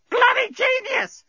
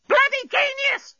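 First: Very high, slow parrot screech; parrot squawk. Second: Piercingly high, slow bird screech; parrot scream. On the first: Parrot answering Bolfas, shrieky drawn-out squawk. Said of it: "squawked the parrot". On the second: Parrot repeating itself to Bolfas, high scream. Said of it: "screamed the parrot". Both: A narrator's reading.

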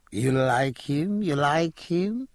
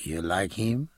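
First: Slow, rising flirtatious ask; coquettish coaxing. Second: Said in the usual way. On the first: Acted. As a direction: tease him slowly, pitch climbing.

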